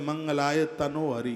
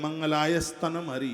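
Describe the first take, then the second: First: The middle word ends in an o sound. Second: The middle word begins with an added s sound. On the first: "बहुत लोग इसको कहते हैं ... ये गलत है बिल्कुल" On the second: "बहुत कहते हैं ... ये भी गलत है"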